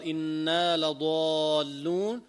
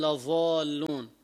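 First: إنا لضالون with a clear ḍād, drawn out slowly; correct ḍād, slow. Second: لضالون said as لظالون, ẓā' in place of ḍād; ḍād turned ẓā'. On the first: Shown as a demonstration. Teacher models correct recitation of لضالون. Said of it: "إخبارا عن الكفار". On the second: Retold or imitated. Teacher imitates the ignorant reader's ẓā'. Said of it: "الضاد بيلفظها ظاء".

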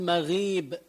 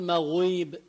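First: مغيب with a thin "ghii"; light غ. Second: مغيب with a rounded "ghuii"; wrong heavy غ. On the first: Teacher showing the right way, مغيب with light غ. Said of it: "منقول مغيب". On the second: Teacher showing the mistake, مغيب with heavy غ. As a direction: thicken and back the غ of مغيب. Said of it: "ما منقول مغيب". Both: Shown as a demonstration.

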